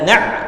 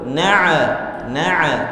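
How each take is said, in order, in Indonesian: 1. Ain dihentikan dengan keras dan kuat. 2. Ain memantul dengan vokal bergema setelahnya. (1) "itu nanti jadi syiddah, bukan sifatnya" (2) "tidak boleh juga memantul"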